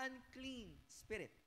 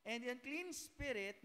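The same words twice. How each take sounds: First: "unclean" slow and softer, falling; quieter stress on unclean. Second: "unclean" drawn out slowly and falling; stress on unclean. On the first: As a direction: repeat "unclean" softly, slowly. (mahinang diin sa "unclean") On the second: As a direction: lean hard on "unclean". (diin sa "unclean") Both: Shown as a demonstration. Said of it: "notice, ah".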